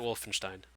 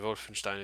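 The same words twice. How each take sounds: First: The name is said with everyday English sounds. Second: The name is said with German-style sounds.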